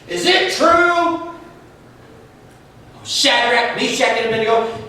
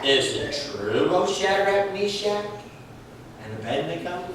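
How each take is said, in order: First: It is said in an angry, furious voice. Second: It is said in a calm, mild voice.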